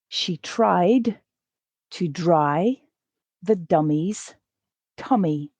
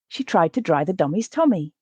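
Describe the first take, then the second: First: The sentence is read quite slowly. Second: The sentence is read at natural speed. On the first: "The first time, I'll read it quite slow" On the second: "The second time, I'll read it at a more natural pace"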